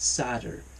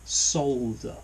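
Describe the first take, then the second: First: The word is said without an L. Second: The word is said with an audible L. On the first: The speaker calls it wrong. "Not solder" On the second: The speaker calls it right. "He does actually pronounce it the correct English way"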